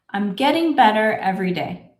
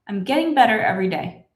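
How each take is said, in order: First: The sentence is spoken slowly. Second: The sentence is spoken at a fast, natural speed. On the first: "A little bit faster" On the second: "this is how I would say it in my normal speed"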